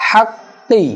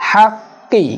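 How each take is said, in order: Both takes have the same delivery.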